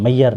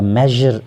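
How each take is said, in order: First: The middle consonant sounds like a soft y. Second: The middle consonant sounds like a zh. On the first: The speaker calls it wrong. "जैसे हम यहाँ पे मैयर इसको पढ़ते हैं" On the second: The speaker calls it right. "जैसे ट्रेजर या मेजर लफ्ज़ होता है"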